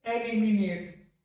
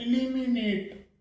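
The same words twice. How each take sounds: First: एलिमिनेट with an "e" at the start, slow; एलिमिनेट said "e-li-mi-net"; wrong pronunciation. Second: इलिमिनेट with an "i" at the start, slow; इलिमिनेट said "i-li-mi-net"; correct pronunciation. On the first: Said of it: "ना कि". (गलत उच्चारण: एलिमिनेट) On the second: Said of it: "सही जो pronunciation होता है वो". (सही उच्चारण: इलिमिनेट) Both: Shown as a demonstration.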